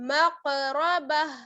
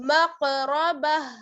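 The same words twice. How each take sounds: The two takes are said the same way.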